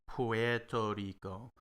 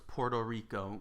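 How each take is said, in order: First: The first word starts with a 'pwer' sound. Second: The first word starts with a 'por' sound. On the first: "you're pronouncing Puerto Rico uh, as Puerto Rico, and it's not wrong" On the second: "We pronounce it with an O"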